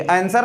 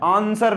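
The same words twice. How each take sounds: First: 'आंसर' with a front 'ae' vowel, as AN-ser; rejected pronunciation. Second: 'आंसर' with a long back 'aa', as AAN-ser; intended pronunciation. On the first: Teacher showing students what is not written, 'आंसर' said as AEN-ser. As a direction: open 'आंसर' on a flat 'ae' as in cat. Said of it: "ये आंसर नहीं लिखा है". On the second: Teacher correcting the reading for students, 'आंसर' said as AAN-ser. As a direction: open wide on the first vowel of 'आंसर', long aa. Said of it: "आंसर लिखा हुआ है". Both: Shown as a demonstration.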